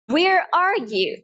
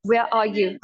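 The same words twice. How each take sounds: First: Slow American accent, strong R. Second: British accent, R dropped from where and are; lower, non-rhotic British pronunciation. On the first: Teacher models where are you, American accent. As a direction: stretch it out in a clear American accent. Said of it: "American accent में मैं बोलूंगी". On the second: Teacher contrasts for learners, British accent. British take after American ones. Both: Shown as a demonstration.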